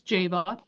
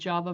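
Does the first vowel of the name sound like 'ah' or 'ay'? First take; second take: ay; ah. First: The first vowel sounds like 'ay'. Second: The first vowel sounds like 'ah'. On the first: The speaker calls it right. "It's Ava's journal, so it's Java" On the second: The speaker calls it wrong. "you will hear me mispronounce it"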